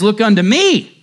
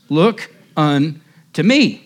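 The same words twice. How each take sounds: First: 'Look unto me' called out higher and louder, with a hint of broad Essex; fervent 'Look unto me' in a light Essex accent. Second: Slow reading. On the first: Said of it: "said he in broad Essex". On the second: Shown as a demonstration. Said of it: "the text says".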